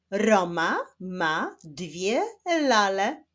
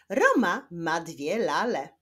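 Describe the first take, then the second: First: Slow, word-by-word reading. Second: Joined-up, brisker sentence reading; quicker reading. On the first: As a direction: stretch each word out for beginning readers. (powolne czytanie słowo po słowie) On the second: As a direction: read it clearly without long breaks. (szybsze, płynniejsze czytanie) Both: Shown as a demonstration. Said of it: "ale w szybszym tempie".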